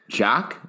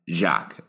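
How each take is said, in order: First: Jacques said alone, carefully, with a rising end; "Jacques" as the first of two compared names, lifted; demonstrating a pronunciation. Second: Jacques said alone, carefully, with a falling end; "Jacques" as the second of two compared names, dropped; contrasting pronunciation. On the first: Repeating the name for the host to compare, careful and rising. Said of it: "say it one more time". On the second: Finishing the comparison for the host, careful and falling. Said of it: "Can you hear the difference?". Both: Shown as a demonstration.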